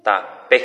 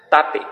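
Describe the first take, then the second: First: "Tape" with the final PE loud and rising; stress on PE. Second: "tape" with a high, loud first syllable, TA; stress on TA. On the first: Teacher showing stress on the final letter, "Tape" stressed on PE. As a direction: say "Tape" as ta-PE, landing on the last vowel. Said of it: "en la letra final". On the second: Teacher showing how an accent would change it, "tape" stressed on TA. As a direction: say "tape" as TA-pe, punching the start. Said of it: "Ha se acentuáramo tape atu heita". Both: Shown as a demonstration.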